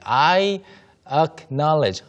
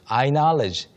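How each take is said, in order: First: The vowel before knowledge is clearly pronounced. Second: The vowel before knowledge is swallowed completely.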